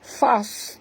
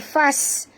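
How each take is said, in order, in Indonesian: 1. Bunyi s itu tebal dan berat. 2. Bunyi s itu tipis dan ringan. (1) "Fas tebal ya" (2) "jangan baca fas. Kalau baca fas jadi sin"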